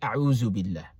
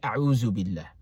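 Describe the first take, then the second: First: The middle consonant is a 'z' sound. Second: The middle consonant is a 'z' sound.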